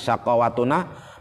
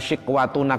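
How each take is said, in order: First: The first vowel is an 'a' sound. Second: The first vowel is an 'i' sound. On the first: This is one of the seven canonical readings. "dengan fathah shin" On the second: This is the common reading. "kayak kita baca"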